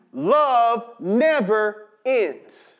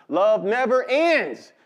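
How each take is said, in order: First: "Love never ends" drawn out word by word; slow emphatic repeat. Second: Said in the usual way. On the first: Real, not acted. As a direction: stretch "Love never ends", pausing between the words.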